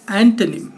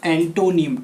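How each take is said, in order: First: एंटोनिम as "AN-tuh-nim"; एंटोनिम without any "o" sound; correct pronunciation. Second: एंटोनिम with a full "toh" middle; एंटोनिम with a round "o" after "t"; wrong pronunciation. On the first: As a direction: say एंटोनिम with a quick "tuh" middle. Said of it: "ना कि". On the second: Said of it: "टो नहीं". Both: Shown as a demonstration.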